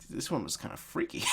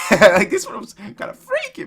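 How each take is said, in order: First: Hushed, hesitant remark; quiet unease. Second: High-pitched, laughing exclamation; cracking up. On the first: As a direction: softly admit it. First take, softly said. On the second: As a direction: squeal it through laughter. Cracks up repeating it. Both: Real, not acted.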